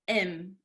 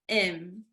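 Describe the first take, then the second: No difference in how they are said.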